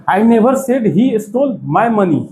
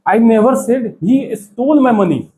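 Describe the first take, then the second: First: "he" lifted and weighted, read slowly; stress on he. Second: "stole" punched and falling, read slowly; stress on stole. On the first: Teacher shows the class "he" stressed, slow and deliberate. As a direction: lean on "he" so it means someone else. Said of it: "और इसको और तरीके से बोल सकते हैं". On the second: Teacher stressing "stole" for English learners, slow and deliberate. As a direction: lean hard on "stole". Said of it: "अभी stall पे जोर दिया जा रहा है". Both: Shown as a demonstration.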